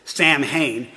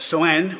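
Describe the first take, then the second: First: It is said as two parts, Sam and Hain. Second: It is not said as Sam plus Hain. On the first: The speaker calls it wrong. "you may think you pronounce it Sam Hain" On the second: The speaker calls it right. "is how they pronounce it"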